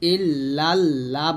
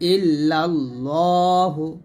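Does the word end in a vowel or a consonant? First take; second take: consonant; vowel. First: The word ends without a final vowel. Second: The word ends with a final u vowel. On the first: The speaker calls it wrong. "ইল্লাল্লাহ বলবেন না" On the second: The speaker calls it right.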